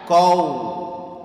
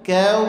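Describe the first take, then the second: First: The k sound is thick and heavy. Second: The k sound is thin and light. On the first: The speaker calls it wrong. "jangan; Kafnya enggak boleh ditebalkan" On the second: The speaker calls it right. "Kafnya huruf tipis"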